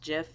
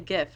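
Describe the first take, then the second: First: The word begins with a soft J sound. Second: The word begins with a hard G sound. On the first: This is the officially intended pronunciation. "I know it's supposed to be pronounced Jif" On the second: This is how the speaker says it in everyday talk. "but I always say GIF"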